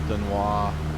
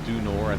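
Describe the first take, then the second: First: The name is said with a French pronunciation. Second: The name is said with a local American pronunciation. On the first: This is the true original form of the name. The speaker calls it right. "if you were saying it really truly in the French vernacular" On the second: This is how the locals name it. The speaker calls it wrong. "Wyoming guys call it the Du Nord"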